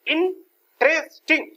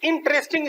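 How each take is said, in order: First: interesting slow and high, in three separate beats; raised, slow three-part split of interesting; broken into syllables. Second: Said in the usual way. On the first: Shown as a demonstration. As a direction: sound out interesting syllable by syllable, slowly. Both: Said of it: "अब इसमें तीन syllable हो गए".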